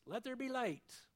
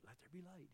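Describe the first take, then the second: First: Booming command. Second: Whispered. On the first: Preacher voicing God's creating word, loud proclamation. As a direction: proclaim "Let there be light" loudly, voice raised high. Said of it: "he didn't have to shout it". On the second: Preacher imagining God whispering creation, hushed whisper. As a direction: breathe "Let there be light" almost silently. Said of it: "He maybe whispered it". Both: Acted.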